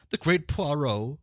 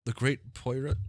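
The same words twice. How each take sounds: First: Poirot said as "PWAH-roh"; high, drawn-out Poirot as "PWAH-roh"; corrected Poirot. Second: Poirot said as "POY-rut"; high voice, Poirot botched as "POY-rut"; mispronounced Poirot. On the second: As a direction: say Poirot with an English "oy" and a short ending. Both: Real, not acted. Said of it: "I'm butchering people's things".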